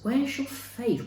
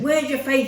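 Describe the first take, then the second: First: It is said in a gentle, inviting tone. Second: It is said in a harsh, scolding tone. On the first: The listeners are asked where their trust is placed. The speaker calls it right. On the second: The listeners are being criticized as foolish. The speaker calls it wrong.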